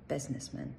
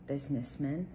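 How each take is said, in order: No difference in how they are said.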